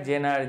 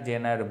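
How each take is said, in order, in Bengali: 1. এটি 'jenar' বলা হয়, 'j' উচ্চারণে। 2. এটি 'jenar' বলা হয়, 'j' উচ্চারণে।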